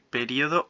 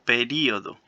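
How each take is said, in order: First: The stress is not on the i sound. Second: The stress falls on the i sound.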